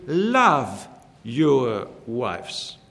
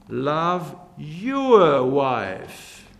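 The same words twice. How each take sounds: First: "love" leaned on, slow and drawn out, with "your wives" falling away after it; stress on LOVE. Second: "your" is the peak, slow and weighty, and the line falls off after it; stress on YOUR. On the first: Preacher to husbands, stressing "love" in a slow, deliberate line. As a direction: hit the word "love" hard and slow. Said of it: "I would like to emphasize the word". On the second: Preacher to husbands, slow stress on "your", not another wife. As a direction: lean on "your" so it means your own wife. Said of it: "The second way we can stress this little exhortation".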